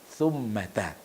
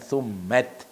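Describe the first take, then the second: First: The word ends with an 'a' vowel. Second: The word does not end with an 'a' vowel. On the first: The speaker calls it right. "tapi summata" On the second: The speaker calls it wrong. "bukan summat"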